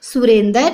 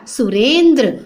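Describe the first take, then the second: First: "सुरेंद्र" as su-ren-dar; vowel before final r in "सुरेंद्र"; wrong pronunciation. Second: "सुरेंद्र" as su-rendr; fuse d and r at the end of "सुरेंद्र"; stretched ren, then dr in "सुरेंद्र"; correct pronunciation. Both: Shown as a demonstration. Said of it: "कैसे लिखते हैं बेटा".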